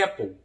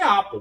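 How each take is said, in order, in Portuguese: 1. A primeira vogal soa como 'eh'. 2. A primeira vogal soa como 'ah'. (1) "mas é Apple" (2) "Muitas pessoas falam que é Apple"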